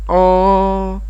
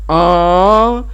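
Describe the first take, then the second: First: The word is said softly and drawn out. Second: The word is said loudly and strongly. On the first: The speaker is replying to the call. "c'est le même en, mais vous baissez l'intensité" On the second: The speaker is calling out a question. "je joue bien la bouche et pour nazier"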